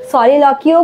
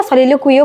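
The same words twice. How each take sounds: First: "সলিলকিও" with a plain -ki ending, no w glide; first pronunciation variant. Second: "সলিলোকুইও" with a -kwi glide before the final o; alternative pronunciation variant. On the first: Teacher offering students one accepted pronunciation of the term, -ki variant. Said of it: "আবার সলিলোকুইও বলে". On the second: Teacher offering students the other accepted pronunciation, -kwi variant. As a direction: say "সলিলোকুইও" as so-li-lo-kui-o. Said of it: "সলিলকিও বলে". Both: Shown as a demonstration.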